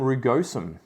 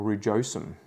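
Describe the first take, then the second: First: Rugosum with a hard g, roo-GOH-sum; hard-g pronunciation. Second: Rugosum with a soft g, roo-JOH-sum; soft-g pronunciation. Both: Shown as a demonstration. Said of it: "however you want to pronounce it".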